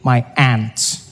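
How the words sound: It is said in an American accent.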